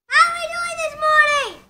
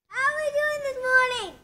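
First: It is said loudly. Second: It is said fairly quietly.

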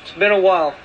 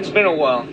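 First: It is said in a higher, lighter voice. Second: It is said in a deeper, bassier voice.

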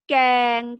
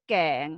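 First: The syllable is said with a level mid tone. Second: The syllable is said with a rising tone. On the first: "เสียงสามัญ" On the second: "เสียงจัตวา"

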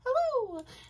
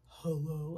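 First: It is said in a high voice. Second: It is said in a low, deep voice. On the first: The speaker calls it right. "I'm betting she's got more of a" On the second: The speaker calls it wrong. "I'm betting she would not be like"

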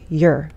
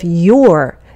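First: The word is said with a short, reduced vowel. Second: The word is said with a full, clear vowel. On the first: "it can reduce to your" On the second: "Instead of your"

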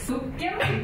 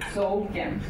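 First: The first vowel is short and plain. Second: The first vowel is long and gliding. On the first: This is the standard Swedish form. "normally like a short vowel" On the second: This is the form heard on Gotland. "is more long, so it's a diphthong"

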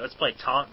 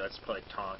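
First: It is said with lively enthusiasm. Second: It is said flatly, without enthusiasm. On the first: The speaker calls it right. "you got to say it with enthusiasm" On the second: The speaker calls it wrong. "It's not just like"

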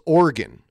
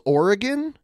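First: The word is said with two syllables. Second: The word is said with three syllables. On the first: The speaker calls it right. "a lot of people from Oregon do it with two syllables" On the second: The speaker calls it wrong. "I say it Oregon as three syllables"

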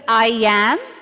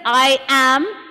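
First: A linking y sound joins the two words. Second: The two words are said separately, without a y. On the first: The speaker calls it right. "You hear it as I am. Can you hear the Y sound?" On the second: The speaker calls it wrong. "you don't hear it as I am"

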